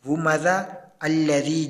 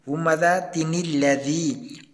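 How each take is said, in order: First: The voice stops after the first word, no linking. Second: The words run together through a linking 'ni' sound. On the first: The reciter pauses at the end of the first word. "अगर हम यहाँ पर वक्फ करते हैं" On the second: The reciter continues without stopping. "उस छोटे नून को लाम के साथ मिला दिया ... और हमने पढ़ा"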